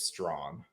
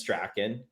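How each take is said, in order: First: The name is said in the common Ontario way. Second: The name is said in the Scottish way. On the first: "a common pronunciation in Ontario is Strawn" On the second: "The proper Scottish pronunciation is Strachan"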